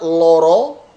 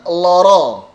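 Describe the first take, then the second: First: LORO with pouted, rounded closed o; rounded lips. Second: LORO with open, unpouted o as in "law". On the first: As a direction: say "loro" with the lips pushed forward. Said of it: "dengan monyong". (loro dengan bibir monyong) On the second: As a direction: Javanese "loro" meaning sick, open vowels. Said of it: "kalau loro itu artinya sakit". (loro dengan o terbuka, tidak monyong) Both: Shown as a demonstration.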